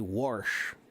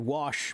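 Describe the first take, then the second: First: It is said with an r sound, local dialect. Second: It is said without an r sound.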